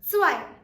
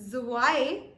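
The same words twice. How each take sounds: First: It begins with a clear ts sound. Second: It begins with a plain z sound, no t. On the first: The speaker calls it right. "emphasize a little bit on the T" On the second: The speaker calls it wrong. "It's not zwei"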